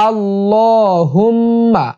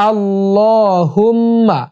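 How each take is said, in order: No difference in how they are said.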